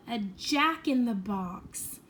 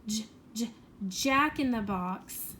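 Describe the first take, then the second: First: Said in the usual way. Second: J-, j-, jack-in-the-box: the j said twice on its own, then the whole word slowly; sounding out the J. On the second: Shown as a demonstration. Teacher showing children the J sound, sounding out slowly. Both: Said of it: "begin with the j-, J sound?".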